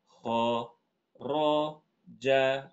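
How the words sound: The syllables are separated but flow as linked. "Ini intonasi ini masih terdengar seperti digandeng"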